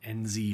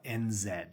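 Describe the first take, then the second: First: The Z is said as zee, American style. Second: The Z is said as zed, non-American style.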